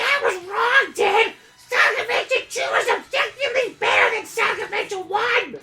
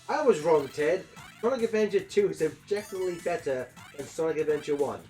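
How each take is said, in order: First: It is said in a Baby Gonzo impression. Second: It is said in his normal voice.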